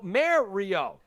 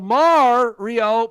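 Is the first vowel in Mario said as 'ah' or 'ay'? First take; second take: ay; ah. First: The first vowel sounds like 'ay'. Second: The first vowel sounds like 'ah'.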